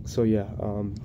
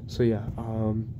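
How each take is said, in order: Both takes have the same delivery.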